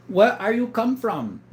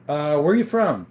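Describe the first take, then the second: First: Slow, higher mock voice reading the question; put-on voice. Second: Said in the usual way. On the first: Rereading a viewer's question to the chat, slow mock voice. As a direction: drawl it out like a goofy caller.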